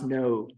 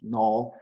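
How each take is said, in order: First: The word is said like English 'no'. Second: The word is said with a Japanese vowel. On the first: "in English, no is, uh, is pronounced no" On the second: "not no in the Japanese way"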